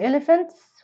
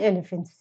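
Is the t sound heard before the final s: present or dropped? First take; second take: present; dropped. First: The t sound is pronounced before the s. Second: The t sound is dropped before the s. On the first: "ينفع ننطق حرف التي مع الاس" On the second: "وينفع ما ننطقش حرف التي"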